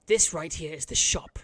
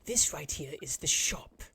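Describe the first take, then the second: First: Said in the usual way. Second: Slow whisper; whispered guide. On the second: Acted. Frog guide showing the shop, whispering slowly. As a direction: breathe the words like a secret. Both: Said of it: "He goes".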